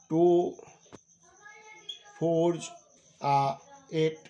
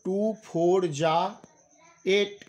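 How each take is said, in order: First: The s sound stays on the number. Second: The s sound is joined onto 'are'. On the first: This is what the words actually are. "Actually" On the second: This is the everyday spoken way. "नहीं कह के हम लोग कह देते हैं टू फोर जा eight"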